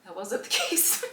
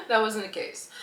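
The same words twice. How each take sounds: First: Real laugh breaking into the words; laughing about it. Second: Said in the usual way. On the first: Real, not acted. Admitting their support didn't last, laughing through it. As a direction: let a laugh interrupt the sentence. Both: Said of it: "I can laugh about it now".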